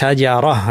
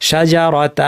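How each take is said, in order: First: The word ends with a breathy 'h' sound. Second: The word ends with a 't' and an 'a' vowel. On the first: The speaker calls it right. "গোলতায় দুই জবর থাকলে হা দিয়ে থামতে হবে" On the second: The speaker calls it wrong. "শাজারাতা বলে থামো না"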